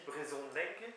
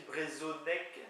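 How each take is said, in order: First: "brezonnec" with a nasal o, the spoken Breton form. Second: "brezonnec" read exactly as spelled, with a plain o; as written. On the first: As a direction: say "brezonnec" as it is really said. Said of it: "mais ça se dit brezonnec". ("brezonnec" tel qu'on le dit) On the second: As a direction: read "brezonnec" off the page, letter by letter. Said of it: "mais ça s'écrit brezonnec". ("brezonnec" lu tel qu'il s'écrit) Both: Shown as a demonstration.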